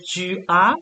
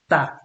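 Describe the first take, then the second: First: The vowel of tu is fully pronounced. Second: The vowel of tu is dropped. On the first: This is the standard form. "instead of saying tu as" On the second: This is casual, familiar speech. "you drop the u"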